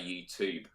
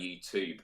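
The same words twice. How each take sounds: First: It is said with an American accent. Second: It is said with an American accent.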